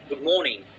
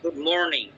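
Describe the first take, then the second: First: It is said in a British English accent. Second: It is said in an American English accent. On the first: "British অ্যাকসেন্টে" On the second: "আমেরিকানরা বলবে"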